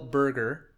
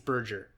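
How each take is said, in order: First: The g is pronounced hard, as in hamburger. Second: The g is pronounced soft, in a French way. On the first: "I'm also going to think it's a hard G" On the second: "I take it back"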